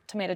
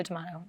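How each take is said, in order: First: "tomato" said as tuh-MAY-tuh; "tomato" the tuh-MAY-toh way. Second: "tomato" said as tuh-MAH-toh. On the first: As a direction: say "tomato" with a long A in the middle. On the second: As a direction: say "tomato" with an AH in the middle. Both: Shown as a demonstration. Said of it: "I don't correct them".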